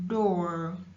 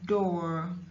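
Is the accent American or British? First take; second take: American; American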